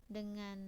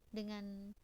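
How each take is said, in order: Both takes have the same delivery.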